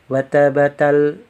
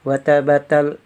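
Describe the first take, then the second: No difference in how they are said.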